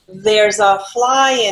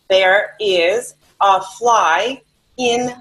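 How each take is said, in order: First: There and is merge into one short syllable. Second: Both words there and is are said separately. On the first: "in everyday spoken English, we say" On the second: "the phrase is"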